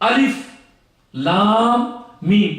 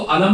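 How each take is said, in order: First: Each letter name is said separately. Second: The letters are joined into one word. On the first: The speaker calls it right. "अलग अलग" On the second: The speaker calls it wrong. "इसको अलम नहीं पढ़ते"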